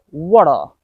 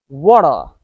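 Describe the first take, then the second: The two takes are said the same way.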